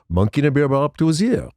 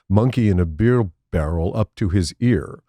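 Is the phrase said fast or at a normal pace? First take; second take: fast; normal. First: It is said very fast, blurred together. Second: It is said at normal speed, words clear. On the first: It sounds like a French phrase. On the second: It sounds like plain English words.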